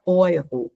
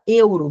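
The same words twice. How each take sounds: First: Euro said as oi-ro, German EU. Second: Euro said as Portuguese e-u-ro. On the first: Teacher showing the right German euro to students. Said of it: "você fala euro". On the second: Teacher showing the wrong Portuguese euro to students. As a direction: say euro the Brazilian way, eh-oo. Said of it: "você não fala euro". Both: Shown as a demonstration.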